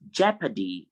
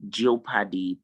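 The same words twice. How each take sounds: First: Jeopardy as JEP-a-dee; correct pronunciation. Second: Jeopardy as JEE-oh-pa-dee; wrong spelling pronunciation. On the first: Teacher modelling the word for students, jeopardy as JEP-a-dee. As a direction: silent O in jeopardy. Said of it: "It's jeopardy". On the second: Teacher showing what to avoid, jeopardy as JEE-oh-pa-dee. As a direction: sound out the O in jeopardy. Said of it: "Is not jeopardy". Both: Shown as a demonstration.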